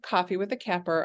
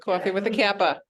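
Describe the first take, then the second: First: It is said in the speaker's plain accent. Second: It is said in a Boston accent.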